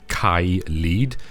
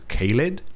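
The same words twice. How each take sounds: First: The name is said the Welsh way. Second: The name is said the usual English way. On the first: "pronounce them in the Welsh way" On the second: "most people will pronounce this as"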